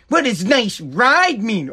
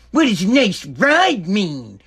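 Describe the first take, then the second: First: Repeated higher, pressing harder; mock accusing wife. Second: Slow, drawn-out suspicious question; mock suspicious wife. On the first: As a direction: push the same question up higher, accusing. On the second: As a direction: stretch each word like a wife who smells trouble. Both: Mocking wife grilling him.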